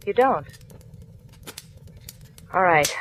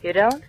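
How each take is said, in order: First: Falling, thoughtful you don't; musing echo. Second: Higher, rising, incredulous you don't; a questioning rise, not buying it; doubting question. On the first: Marla mulling over Harry's answer, falling and thoughtful. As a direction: let it drop, accepting it. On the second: Marla doubting Harry's denial, rising incredulous question. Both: Acted.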